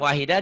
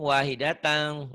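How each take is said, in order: First: The word ends cut off with a soft 'ah'. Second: The word ends with a nasal 'tan' sound. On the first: The reading stops at this word. "wahidah dihentikan" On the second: The reading continues into the next word. "disambung wahidatang"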